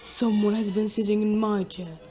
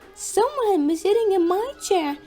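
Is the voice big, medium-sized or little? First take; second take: big; little. First: It is said in a great big voice. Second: It is said in a little voice.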